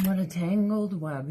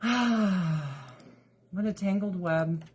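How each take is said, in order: First: Said in the usual way. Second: Slow, sighing resignation; sighed rueful remark. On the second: Real, not acted. Vlogger sighing over her kitten drama, slow and resigned. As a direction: let it out on a long sigh, slowly.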